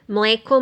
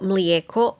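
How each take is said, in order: First: The middle vowel is a plain e. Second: The middle vowel is a gliding ije.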